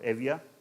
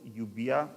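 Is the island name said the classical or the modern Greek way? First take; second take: modern; classical. First: The name is given its modern Greek pronunciation. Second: The name is given its classical pronunciation. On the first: "in modern Greek" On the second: "if you prefer classical pronunciation"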